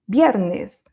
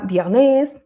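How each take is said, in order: First: The i sound is pressed on firmly. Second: The i sound is weak, not pressed on. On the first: The speaker calls it right. "on va appuyer sur le i" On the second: The speaker calls it wrong. "on ne dit pas viernes"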